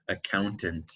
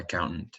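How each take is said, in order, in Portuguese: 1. Dito devagar, com o T depois do N pronunciado. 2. Dito naturalmente, com o T depois do N omitido. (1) "se você fala devagar" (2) "se a gente engole os, os T's, especialmente depois de um N"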